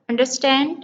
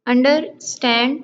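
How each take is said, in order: First: Said in the usual way. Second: "अंडरस्टैंड" as under, pause, stand; split into syllables. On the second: Shown as a demonstration. Teacher counting syllables in understand, split in two. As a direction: break "अंडरस्टैंड" in the middle. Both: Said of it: "two syllable".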